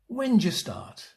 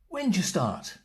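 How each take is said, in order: First: 'When do' is squeezed into one syllable. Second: The same.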